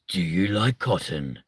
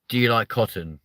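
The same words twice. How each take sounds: First: It is said in a dramatic movie-trailer voice. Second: It is said in a plain, normal speaking voice.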